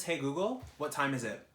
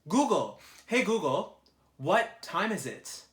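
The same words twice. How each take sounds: First: Said in the usual way. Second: Higher, louder and slower, calling at the phone; louder repeat. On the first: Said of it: "asks phone assistant the time". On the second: Real, not acted. Repeating the question to the phone assistant, loud and slow. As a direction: call out so the phone finally hears. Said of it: "repeats louder to phone assistant".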